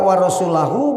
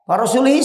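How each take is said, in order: First: The word ends with an 'oo' vowel. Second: The word ends with an 'ee' vowel. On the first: God and his messenger are free of the idolaters. The speaker calls it right. "mun wa rasulahu mah macana manana beda" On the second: God is free of the idolaters and of his messenger. The speaker calls it wrong. "wa rasulihi salah macana"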